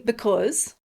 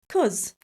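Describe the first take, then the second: First: The word is said in full with both syllables. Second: The first syllable is dropped, leaving one syllable. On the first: The speaker calls it wrong. "Don't say because" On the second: The speaker calls it right. "say cause. Just drop the b sound"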